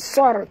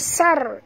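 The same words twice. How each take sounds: First: The 's' sound is heavy and thick. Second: The 's' sound is light and thin. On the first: The speaker calls it right. "baca sar tebal kan huruf sad" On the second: The speaker calls it wrong. "jangan baca sar ya"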